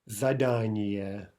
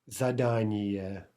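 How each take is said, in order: Both takes have the same delivery.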